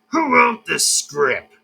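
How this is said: It is said in an imitation of Foxy's voice.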